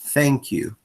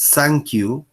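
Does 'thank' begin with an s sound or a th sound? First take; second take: th; s. First: The first sound is a th sound. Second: The first sound is a plain s sound. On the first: The speaker calls it right. "en vez de thank you" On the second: The speaker calls it wrong. "nosotros preferimos decir thank you"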